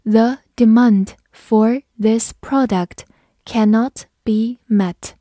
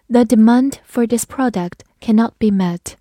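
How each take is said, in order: First: "The demand for this product cannot be met" slowly, word by word; slow reading. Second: Said in the usual way. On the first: Shown as a demonstration. Teacher announces a slow reading, very slow. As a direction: read it slowly for the class. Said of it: "好，我们慢读一遍". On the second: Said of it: "我们慢读一遍".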